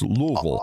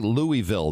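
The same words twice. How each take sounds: First: The syllables are mumbled together, as if mouth full. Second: Each syllable is said clearly and separately. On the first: The speaker calls it right. "it's Louisville. Almost like you have ... A mouthful of something" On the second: The speaker calls it wrong. "they don't say Louisville there"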